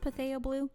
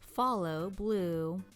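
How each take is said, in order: First: The first word sounds like 'Patheo'. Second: The first word sounds like 'Follow'. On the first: The speaker calls it wrong. "Is it pronounced Patheo Blue?" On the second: The speaker calls it right. "it's pronounced as Follow Blue"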